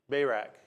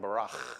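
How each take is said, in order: First: The name is pronounced the usual English way. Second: The name is pronounced in a Hebrew-like way. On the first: "he didn't pronounce that right" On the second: "in Hebrew it's probably more like Barach"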